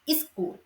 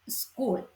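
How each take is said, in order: First: The opening consonant cluster is broken up. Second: The opening consonant cluster is kept together. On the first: "In Sri Lankan, we say school" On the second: "Standard English"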